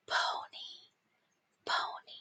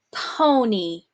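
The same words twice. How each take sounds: First: Soft whisper of the word. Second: Said in the usual way. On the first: Shown as a demonstration. Teacher whispering the dictation word to the class. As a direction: hush it right down. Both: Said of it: "dictation drill, word repeated".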